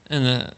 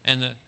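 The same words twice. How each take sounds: The two takes are said the same way.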